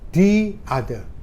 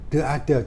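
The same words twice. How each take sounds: First: 'The' is said with a long 'thee' vowel. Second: 'The' is said with a short 'thuh' vowel. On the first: The speaker calls it right. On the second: The speaker calls it wrong.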